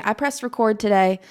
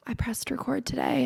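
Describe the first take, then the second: First: Said in the usual way. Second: Hushed whisper of the same line. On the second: Retold or imitated. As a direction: breathe it like a secret. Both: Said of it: "I'm like".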